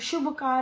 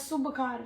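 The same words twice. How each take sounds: First: The word begins with an 'sh' sound. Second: The word begins with an 's' sound. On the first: The speaker calls it right. "श ही है" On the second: The speaker calls it wrong. "स नहीं है"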